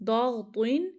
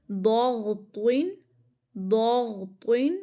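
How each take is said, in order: First: Said in the usual way. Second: ضاغطین stretched very slowly, heavy letters held, ending on a rise; slow drawn-out recital. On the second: Shown as a demonstration. Teacher reciting the memory word for students, slow and heavy. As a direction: draw ضاغطین out syllable by syllable like a model recital. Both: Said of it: "ابھی آپ simple پڑھ لینا".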